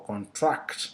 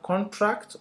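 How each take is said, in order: First: ConTRACT, second syllable stressed and drawn out. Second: CONtract, first syllable high and strong; stress on first syllable. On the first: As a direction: hit TRACT in contract. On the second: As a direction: punch CON in contract, drop the rest. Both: Shown as a demonstration. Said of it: "either on the initial or the second one".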